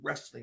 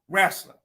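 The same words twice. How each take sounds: First: It is said in a non-Virginia pronunciation. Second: It is said in a Virginia pronunciation. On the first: This is how others claim the speaker says it. The speaker calls it wrong. "I don't say wrestling" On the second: This is how the speaker actually says it. The speaker calls it right. "That's how we say it in Virginia"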